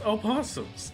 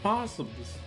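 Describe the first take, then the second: First: The word begins with a spoken 'o' sound. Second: The word begins directly with the 'p' sound. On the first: "I pronounce the O in opossums" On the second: "If you're spelling it possums"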